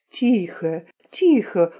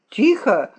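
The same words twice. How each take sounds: First: Pleading. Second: Brief, mildly raised command; calling out. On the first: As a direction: beg them to hush, understated. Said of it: "умолял петух". (негромкая мольба) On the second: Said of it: "крикнул капрал". (негромкий командный окрик) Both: A narrator's reading.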